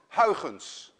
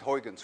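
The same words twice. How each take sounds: First: The name is said with Dutch pronunciation. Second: The name is said with English pronunciation. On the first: "a Dutch person would pronounce it as Huygens" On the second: "So we will just call it Huygens for now"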